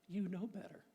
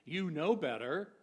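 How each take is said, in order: First: It is said in a warm, encouraging tone. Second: It is said in a scolding, reproachful tone. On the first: The listener is seen as capable of wise choices. "what if we shared" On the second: The listener should be ashamed of a foolish act. "rather than hearing"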